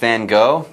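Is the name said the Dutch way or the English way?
English. It uses the common English pronunciation. This is how most people say it. The speaker calls it wrong. "People say Vincent van Gogh"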